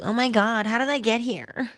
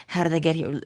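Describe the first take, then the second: First: High, startled oh my God; panicked wondering. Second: Said in the usual way. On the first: Retold or imitated. Mocking someone suddenly lost in their own life, high and startled. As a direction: play a stunned person who lost their way. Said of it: "As opposed to". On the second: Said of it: "asking ourselves that question".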